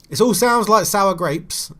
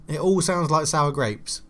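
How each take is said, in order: First: Higher and louder, slowly drawn out; mock-declare it like a big verdict; loud self-mocking line. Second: Said in the usual way. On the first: Real, not acted. Gamer mocking his own complaints about the game, loud and drawn out.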